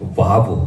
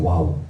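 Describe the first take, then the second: First: The name begins with a v sound. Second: The name begins with a w sound. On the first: This is the current way to say it. "바브라고 하는 것인데요" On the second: This is how it used to be said. "예전에 와우라고 했어요"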